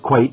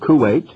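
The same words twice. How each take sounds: First: It is said the way local people say it. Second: It is said the usual Western way. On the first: "most people over there call it Kuwait" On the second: "instead of Kuwait"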